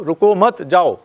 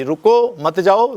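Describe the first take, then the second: First: "रुको मत" as one unit, break, then "जाओ"; pause after मत. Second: Slow "रुको", break, then "मत जाओ" together; pause after रुको. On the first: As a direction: move the comma to after मत. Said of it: "एकदम रिवर्स हो गया सारा". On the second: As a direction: hold apart रुको and the joined मत जाओ. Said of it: "बात उलट जाती". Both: Shown as a demonstration.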